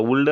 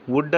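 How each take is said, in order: First: వుడ్ misread with an l before the d; wrongly sounded L. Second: వుడ్ with no l sound; correct silent L. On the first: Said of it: "అని పలకకూడదు కదా". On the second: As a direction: say వుడ్ as "wood", straight to the d. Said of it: "వుడ్ అని పలకాలి". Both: Shown as a demonstration.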